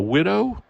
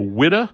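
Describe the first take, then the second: First: The word ends with a full, clear vowel. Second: The word's ending is clipped with a changed vowel. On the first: The speaker calls it right. "instead of a widow" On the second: The speaker calls it wrong. "she would call it a widow"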